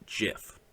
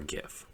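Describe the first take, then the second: First: The word begins with a soft G sound. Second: The word begins with a hard G sound. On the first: The speaker calls it right. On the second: The speaker calls it wrong.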